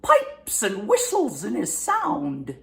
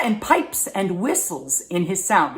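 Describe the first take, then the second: First: Put-on slow, high, whistling old voice; piping old man. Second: Said in the usual way. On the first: Shown as a demonstration. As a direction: pipe it out slowly, high and aged. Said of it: "they whistle a little bit when they talk".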